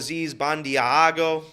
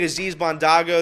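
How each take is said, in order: First: The surname has an 'ee' sound after 'd'. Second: The surname has no 'ee' sound after 'd'. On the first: The speaker calls it wrong. "they called Aziz Bandiago" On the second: The speaker calls it right. "I think Aziz Bondago"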